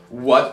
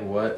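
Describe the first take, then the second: First: It is said in an aggressive way. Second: It is said in a calm, plain way.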